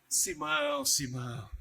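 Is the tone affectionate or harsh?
affectionate. The names are said in a tender, loving tone.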